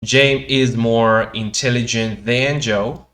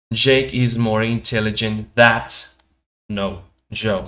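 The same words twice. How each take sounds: First: Slow, loud model sentence, than ending in a clear n; correct example sentence. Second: Slow, loud sentence with than turned into that, ending in t; incorrect example sentence. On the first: Teacher showing students the correct sentence, slow and loud with than. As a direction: read it out slowly and loudly, with than ending in n. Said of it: "lo de aquí es correcto". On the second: Teacher showing students the error, than said as that. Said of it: "lo de aquí abajo es incorrecto". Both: Shown as a demonstration.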